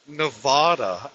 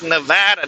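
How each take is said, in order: First: A fancy, overly sophisticated-sounding pronunciation of the word. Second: A plain, everyday local pronunciation of the word. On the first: The speaker is an outsider or newcomer. The speaker calls it wrong. "It sounds like you're trying way too hard to sound sophisticated" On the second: The speaker is a long-time local. The speaker calls it right. "It's just Nevada"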